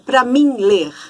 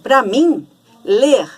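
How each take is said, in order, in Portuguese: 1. Não há pausa depois de mim. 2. Há uma pausa depois de mim. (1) "não é, é para mim ler" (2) "existe uma pausa que na, na fala a gente realmente faz essa pausa"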